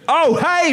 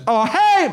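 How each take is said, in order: First: It is shouted in the speaker's natural voice. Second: It is said in a put-on foreign accent. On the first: It conveys only the loud greeting. The speaker calls it right. "I'll do it in my voice, shouting" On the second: It imitates the friend's way of speaking. The speaker calls it wrong. "don't do a voice, that's racist"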